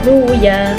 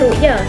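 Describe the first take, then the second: First: The middle consonant is a w sound. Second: The middle consonant is a glottal stop. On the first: The glottal stop is replaced in this reading. "diibdalkan kepada waw" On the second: This is the original reading. "asalnya ru'ya"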